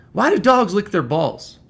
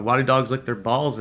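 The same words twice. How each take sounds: First: High, louder quoted question; acted, raised-voice non sequitur; out-of-character question. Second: Said in the usual way. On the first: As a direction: pitch it up sharply as an imitated boss's odd question. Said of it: "never heard this guy talk like this". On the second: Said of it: "he took it down a le-, layer".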